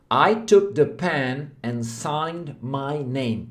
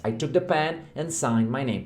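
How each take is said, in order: First: Very slow, careful English sentence; slow model sentence. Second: Said in the usual way. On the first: Shown as a demonstration. Teacher models the sentence slowly for students. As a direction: read it word by word. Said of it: "se você fala assim". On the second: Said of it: "várias palavras novas".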